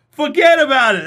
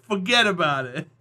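First: Loud, high, hammed-up Jersey accent; brash, raised-voice New Jersey accent, put on. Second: Lightly done New Jersey accent; a casual, understated Jersey accent. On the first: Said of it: "That's my Jersey accent". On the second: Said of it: "Or a New Jersey accent". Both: Shown as a demonstration.

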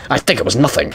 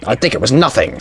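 First: Lightly mimicked game villain; hint of a villain voice; Albert Wesker. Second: Lightly imitated game villain; hint of a villain impression; Skullface. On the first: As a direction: echo the line as a light villain impression. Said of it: "Albert Wesker". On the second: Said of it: "Sound like Skullface from Metal Gear Solid five".

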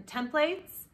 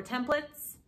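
First: "templates" with a full "plates" ending; alternate pronunciation. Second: "templates" with a reduced "plits" ending; alternate pronunciation. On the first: Potter naming her tool, full "plates" ending on "templates". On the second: Potter offering the other version, short "plits" ending on "templates". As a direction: say "templates" with a short, unstressed last syllable. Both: Shown as a demonstration. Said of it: "however you say it".

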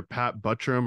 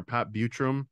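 First: Buttram said with a short u, BUT-rum; first pronunciation option. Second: Buttram said with a long u, BYOO-trum; alternative pronunciation. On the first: Podcaster unsure of the actor's surname, Buttram pronounced BUT-trum. Don't know how to pronounce. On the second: Podcaster asking co-host about the name, Buttram pronounced BYOO-trum. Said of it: "the pronunciation of his name". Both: Shown as a demonstration.

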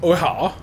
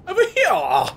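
First: Said in the usual way. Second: Much higher put-on voice; mock-questioning in a very high pitch; silly high repeat. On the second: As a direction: squeak the question playfully.

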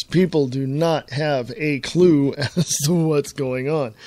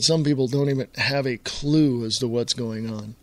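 First: Slow, separate stresses on "do not have a clue"; serious emphasis. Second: Said in the usual way. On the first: Real, not acted. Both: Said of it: "I'm serious".

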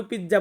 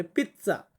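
First: Said in the usual way. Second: পিৎজা said the Italian way, with a sharp ts sound: pitsa; পিৎজা with a crisp ts in the middle; পিৎজা pronounced pitsa, the way Italians say it; Italian pronunciation. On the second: Shown as a demonstration. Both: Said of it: "but ওরা কিন্তু একটু ডিফারেন্টভাবে বলে".

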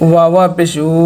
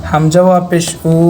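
First: "উ" begun with a rounded w, as wu; waw sound. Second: "উ" as a plain hamza u, no w; hamza sound. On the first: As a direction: glide into "উ" from a clear w. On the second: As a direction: start "উ" from the throat, without a w glide. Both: Shown as a demonstration. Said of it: "ওয়াইয়ের উচ্চারণটা আর হামজার উচ্চারণটা কখন এক করবেন".

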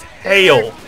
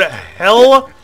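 First: "hail" as redneck for hell, drawn out. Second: Said in the usual way. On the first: Shown as a demonstration. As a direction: stretch "hail" with a redneck long vowel. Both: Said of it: "replace the word hell with hail".

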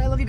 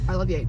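First: Said in the usual way. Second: Monotone. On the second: Retold or imitated. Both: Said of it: "she said it really monotone".

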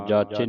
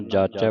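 First: ਜਾਚੇ ending in a close "ay"; wrong single-lanv ending. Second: ਜਾਚੈ ending in an open "eh"; double-lanv ending. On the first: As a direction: say ਜਾਚੇ with a closed final vowel. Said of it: "ਜਾਚੇ ਨਹੀਂ ਪੜ੍ਹਨਾ". (ਜਾਚੇ, ਇੱਕ ਲਾਂ ਨਾਲ) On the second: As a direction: open the last vowel of ਜਾਚੈ. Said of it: "ਦਲਾਵਾਂ ਲੱਗੀਆਂ". (ਜਾਚੈ, ਦੁਲਾਵਾਂ ਨਾਲ) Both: Shown as a demonstration.

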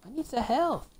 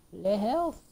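First: Said in the usual way. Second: Put-on a quick jokey French accent on Le health; playful fake French accent; mock French accent. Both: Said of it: "I'm speaking French".

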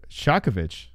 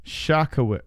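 First: "Shakovich" as SHAH-kuh-vitch; "Shakovich" ending in vitch; V sound. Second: "Shakowicz" starting SHAH, with a W; "Shakowicz" sounded out with a W; suggested pronunciation. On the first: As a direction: say "Shakovich" with V in place of W. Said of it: "the W here is a V sound". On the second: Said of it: "D-Rest says pronounced". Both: Shown as a demonstration.

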